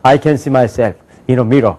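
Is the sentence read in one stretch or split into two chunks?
two chunks. The sentence is split into two chunks with a pause. The speaker calls it right. "두 번에 탁 끊으면"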